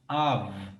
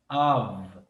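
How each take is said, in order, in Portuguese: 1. A palavra termina com som de V. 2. A palavra termina com som de V.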